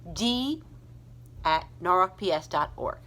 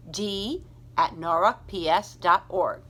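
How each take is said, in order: Both takes have the same delivery.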